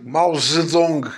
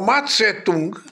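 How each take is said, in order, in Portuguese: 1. O nome é dito com a forma mais nova 'Zedong'. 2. O nome é dito com a forma mais antiga 'Tse-tung'. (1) "nós é que mudámos de pronúncia" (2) "que era o Mao Tse-tung do meu tempo"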